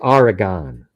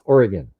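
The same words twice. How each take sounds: First: The ending does not sound like 'gin'. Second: The ending sounds like 'gin'. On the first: The speaker calls it wrong. "as you would say" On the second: The speaker calls it right. "O R Y G I N almost"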